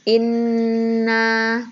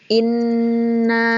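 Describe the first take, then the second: The two takes are said the same way.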